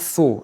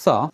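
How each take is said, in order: First: The vowel sounds like 'oh'. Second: The vowel sounds like a short 'uh'. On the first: The speaker calls it wrong. "et non pas tho" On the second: The speaker calls it right. "Le premier O se prononce comme si c'était un U"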